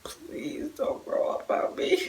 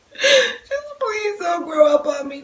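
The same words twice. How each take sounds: First: Hushed, slow plea to her son not to grow up; pleading whisper. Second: High, slow, half-sobbing plea; crying plea. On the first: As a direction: whisper it like a secret wish. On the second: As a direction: let the voice crack as you beg. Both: Retold or imitated. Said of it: "I was like".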